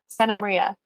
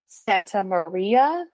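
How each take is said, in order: First: The T sound is dropped. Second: The T sound is fully pronounced.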